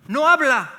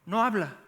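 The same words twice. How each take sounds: First: Loud, high, slow emphasis on NO; loud "No" in "No habla"; emphatic loud preaching. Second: Said in the usual way. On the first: Acted. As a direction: hammer home "No habla" with force. Preacher stresses her silence.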